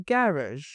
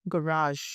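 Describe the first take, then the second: First: "garage" as GA-razh, stress up front; British garage. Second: "garage" as guh-RAHZH; American garage. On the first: Teacher showing students British garage as GA-razh. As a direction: stress the first syllable of "garage". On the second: Teacher showing students American garage as guh-RAHZH. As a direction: stress the long second syllable of "garage". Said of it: "in American it is". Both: Shown as a demonstration.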